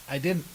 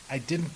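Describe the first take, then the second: No difference in how they are said.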